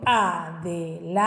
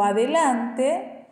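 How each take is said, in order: First: "adelante" with a pause between syllables; split into syllables. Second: Said in the usual way. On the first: Shown as a demonstration. Teacher dividing an example word, syllable by syllable. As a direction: say "adelante" as a, de, lan, te, each apart. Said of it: "y le divido". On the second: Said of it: "y le divido adelante".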